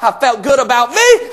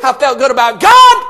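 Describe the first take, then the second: First: "me" rising at the end; stress on me. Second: "God" punched loud at the end; stress on God. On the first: Preacher testifying about his esteem, "me" lifted on a rise. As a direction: lift "me" as the first half of a contrast. Contrast of me and God. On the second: Preacher testifying about his faith, "God" shouted out. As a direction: land hard on "God" as the payoff. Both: Real, not acted.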